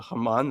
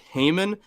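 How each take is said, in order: First: The name does not sound like Heyman. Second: The name sounds like Heyman. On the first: The speaker calls it right. "if if we could go ahead and pronounce it Haman, that would be great" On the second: The speaker calls it wrong. "pronouncing it Haman makes me think of Paul Heyman"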